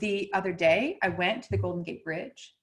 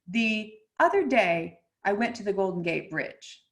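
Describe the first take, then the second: First: The pitch starts low and rises at the end. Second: The pitch starts high and falls at the end. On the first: It is an affected, Valley Girl way of talking. The speaker calls it wrong. "It starts low and ends high" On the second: It is a plain statement. The speaker calls it right. "start at a mid to high pitch and cascade this direction"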